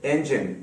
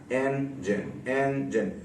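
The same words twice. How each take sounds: First: Said in the usual way. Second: engine split slowly and softly into two beats; two separate syllables. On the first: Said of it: "दो syllable वाले words". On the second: Shown as a demonstration. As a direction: say engine with a gap between its syllables. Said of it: "दो मरतबा sound को". (Engine को दो हिस्सों में धीरे-धीरे)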